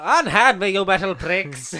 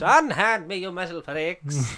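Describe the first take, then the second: First: Hammed-up Matt Berry as Troughton; loud theatrical unhand me; hammy stage actor. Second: Lighter repeat of the hammy line; theatrical, drawn-out insult; hammy stage actor. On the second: Acted. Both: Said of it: "get your Matt Berry doing Patrick Troughton stuff".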